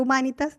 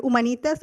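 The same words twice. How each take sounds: First: Humanitas stressed on the MA; second pronunciation option. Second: Humanitas stressed on the NI; first pronunciation option. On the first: Naming the old school both ways, Humanitas with earlier stress. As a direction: say Humanitas as hu-MÁ-ni-tas. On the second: Naming their old school, Humanitas with later stress. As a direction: say Humanitas as hu-ma-NÍ-tas. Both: Shown as a demonstration. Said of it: "dependiendo de cómo lo quieran pronunciar".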